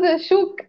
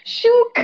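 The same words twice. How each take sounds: First: Said in the usual way. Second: Emphatic shook. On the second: Shown as a demonstration.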